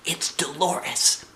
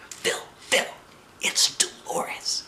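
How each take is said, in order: First: Said in the usual way. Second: Slow urgent whisper. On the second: A narrator's reading. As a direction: whisper his name to get his attention. Secretly calling to her friend.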